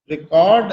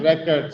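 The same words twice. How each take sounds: First: "Record" with the weight on the second syllable, re-CORD; record as a verb. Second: "record" with the weight on the first syllable, REC-ord; record as a noun. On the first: Teacher repeating the verb for students, "Record" as re-CORD. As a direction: make "Record" the verb, re-CORD, short first vowel. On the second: Teacher repeating the noun for students, "record" as REC-ord. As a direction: make "record" the noun, REC-erd, reduced ending. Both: Shown as a demonstration. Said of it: "pronouncing the word in two different ways".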